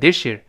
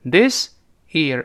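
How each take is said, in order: First: The s and y merge into sh. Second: The s and y sounds stay separate.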